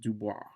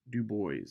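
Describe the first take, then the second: First: The name is pronounced the French way. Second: The name is pronounced the English way. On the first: The speaker calls it wrong. "mispronounce Du Bois as Dubois, because in French, it, that is how you say it" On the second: The speaker calls it right. "Du Bois is how he wanted it pronounced"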